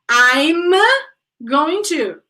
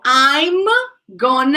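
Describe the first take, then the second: First: Going to is said as two full words. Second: Going to is reduced to one short gonna. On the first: "Going to is the same as gonna" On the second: "Going to is the same as gonna"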